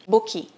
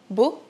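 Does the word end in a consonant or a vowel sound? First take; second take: vowel; consonant. First: An extra vowel is added after the final consonant. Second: The word ends cleanly on the final consonant. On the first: The speaker calls it wrong. "nós falamos bookie" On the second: The speaker calls it right. "ao invés de falar book"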